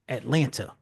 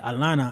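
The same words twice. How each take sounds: First: It is said with a non-local pronunciation. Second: It is said with a local Atlanta pronunciation. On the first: The speaker would sound like an outsider. "and not Atlanta" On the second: The speaker fits in as someone from Atlanta. "in Atlanta, I'm different. I say Atlanta"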